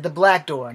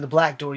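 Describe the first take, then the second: First: "black" punched louder to correct a mishearing; stress on BLACK. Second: Said in the usual way. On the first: Real, not acted. Correcting listeners who might hear back door, stressing "black". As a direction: lean hard on "black" in "the black door". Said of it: "I said the black door, not the back door". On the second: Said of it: "I said the black door".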